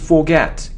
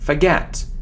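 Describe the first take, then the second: First: The first vowel is a full 'or' sound. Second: The first vowel is a weak 'a' sound. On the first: The speaker calls it wrong. "It isn't forget" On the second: The speaker calls it right. "It's a weak sound of a"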